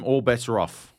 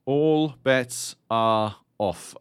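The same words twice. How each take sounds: First: Said in the usual way. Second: "All bets are off" drawn out very slowly, each word weighted; slow ominous repeat. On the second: Acted. Repeats phrase for emphasis.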